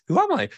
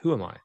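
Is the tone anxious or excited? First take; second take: excited; anxious. First: It sounds excited and delighted. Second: It sounds anxious and troubled.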